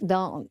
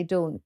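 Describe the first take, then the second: First: Dawn with an open American "ah" vowel; American pronunciation of Dawn. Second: Dawn with a rounded British "aw" vowel; British pronunciation of Dawn. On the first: British guest imitating how people pronounce her name, American "Dawn". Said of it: "how people pronounce my name". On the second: British guest showing how she says her name, British "Dawn". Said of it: "when I say Dawn". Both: Shown as a demonstration.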